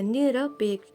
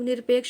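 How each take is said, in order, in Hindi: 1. 'r' के बाद पूरा 'a' स्वर आता है। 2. 'r' और 'p' के बीच कोई स्वर नहीं, 'r' सीधे 'p' से जुड़ता है। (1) "निरपेक्ष ऐसे ही बोलिए" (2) "हम लोग निरपेक्ष बोलते हैं तो लगता है कि ऊपर रा ऐसे लगेगा"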